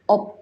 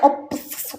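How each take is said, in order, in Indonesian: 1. Kata ini hanya berakhir dengan bunyi 'p'. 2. Kata ini berakhir dengan bunyi 'p' dan 's'. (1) "dibacanya cukup op aja" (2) "jangan baca ops"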